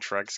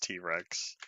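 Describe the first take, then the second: First: The name is said as one syllable. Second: The name is said as two syllables. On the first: This is how the speaker has been saying it. The speaker calls it wrong. "Have I been saying Trex guy this whole time" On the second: This is how the name was meant to be said. The speaker calls it right. "supposed to have it pronounced as T-Rex"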